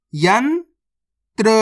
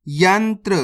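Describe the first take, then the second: First: यंत्र very slowly, yan rising, long pause, then tra; split into syllables. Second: Said in the usual way. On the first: Shown as a demonstration. Teacher breaking a word down for learners, split into syllables. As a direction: sound out यंत्र in two separate parts. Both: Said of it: "direct मात्रा का उच्चारण करके पढ़ेंगे".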